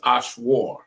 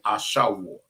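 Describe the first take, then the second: First: There is no vowel between sh and w. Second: A short vowel comes between sh and w. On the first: The speaker calls it wrong. "the way I'm reading is Ashwar" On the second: The speaker calls it right. "you want to say Ashawar"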